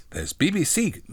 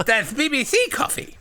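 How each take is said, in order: First: Raised voice, fumbled character line; tentative childlike character voice; lightly voiced John. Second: Very high simpleton voice; high, silly lisping retake; full-on childlike John. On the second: Acted. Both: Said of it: "John says".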